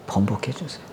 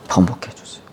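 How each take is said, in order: First: Low, much softer begging; soft desperate plea. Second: Whispered begging; whispered plea. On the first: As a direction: beg almost under the breath. (아주 작게 간절히 애원) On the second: (속삭이듯 애원하는 목소리) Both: Acted. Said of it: "통곡하면서 기도한 거예요".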